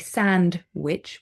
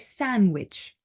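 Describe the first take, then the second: First: The D sound is pronounced in the middle. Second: The D sound is left out entirely. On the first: The speaker calls it wrong. "We don't say sandwich" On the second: The speaker calls it right. "We don't pronounce the D in the middle"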